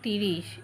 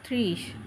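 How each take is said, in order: First: A vowel is inserted between t and r. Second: The t and r sounds are joined directly. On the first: The speaker calls it wrong. "কখনোই তিরিশ তিনে শূন্য তিরিশ এইরকম উচ্চারণ করাবেন না" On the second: The speaker calls it right. "তিনে শূন্য ত্রিশ"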